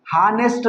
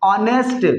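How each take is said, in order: First: हॉनेस्ट with a sounded h at the start; wrong pronunciation. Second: ऑनेस्ट with silent h, opening on ऑ; right pronunciation. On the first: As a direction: say हॉनेस्ट with a breathy h, as the mistake. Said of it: "हॉनेस्ट नहीं पढ़ा जाएगा". (हॉनेस्ट में ह की आवाज़ साफ़ बोलें) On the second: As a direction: say ऑनेस्ट starting straight on the vowel ऑ. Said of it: "गलत प्रोनाउंसिएशन हो जाएगा". (ऑनेस्ट बिना ह के, सीधे ऑ से) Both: Shown as a demonstration.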